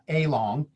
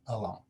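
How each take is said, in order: First: The first vowel is a full A sound. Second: The first vowel is a reduced schwa sound. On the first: The speaker calls it wrong. "It's not a short A or a long A in this word along. It's not" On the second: The speaker calls it right. "it's along"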